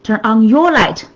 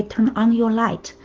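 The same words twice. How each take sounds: First: "your" hit hardest, falling tune at the end; stress on YOUR. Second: "on" leaned on while the rest stays soft; stress on ON. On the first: Coach showing her audience a second emphasis, stress on "your". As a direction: punch "your", let "light" drop. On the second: Coach showing her audience where the emphasis can fall, stress on "on". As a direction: press the word "on", keep "Turn" and "your light" light. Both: Shown as a demonstration. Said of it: "you can pronounce that in different, uh, emphasis on different word".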